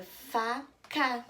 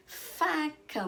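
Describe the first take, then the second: First: "faca" split into fa, pause, ca; syllable by syllable. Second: "faca" joined up, first syllable high and held; whole word. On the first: Teacher revealing a new word to children, syllable by syllable. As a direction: slowly sound out "faca" in two beats. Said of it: "quando eu leio de sílaba em sílaba". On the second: Teacher confirming the word formed, whole word. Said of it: "Eu formei a palavra faca". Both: Shown as a demonstration.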